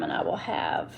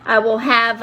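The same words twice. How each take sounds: First: Whispered under her breath while searching; muttered aside. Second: Said in the usual way. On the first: Real, not acted. To herself while digging for nail sizes, whispered. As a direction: mutter it to yourself, almost no voice.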